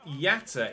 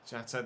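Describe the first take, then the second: First: The name begins with a Y sound. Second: The name begins with a J sound. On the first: "They pronounce it Yatta in commentary" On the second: "I've been calling him Jatta"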